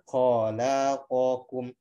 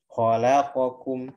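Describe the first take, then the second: First: A vowel is stretched to two beats. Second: Each vowel is held for one short beat. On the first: The speaker calls it wrong. "Kalau dua harokat kan khalaqakum, tapi itu kan nggak boleh ya" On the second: The speaker calls it right. "satu harokat"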